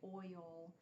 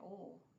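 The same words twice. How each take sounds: First: The word is said in a strained standard way. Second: The word is said in a regional home accent. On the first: "I can't say oil. It's like I feel like I'm going to sprain something when I do that" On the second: "Everybody growing up, that's how we said it"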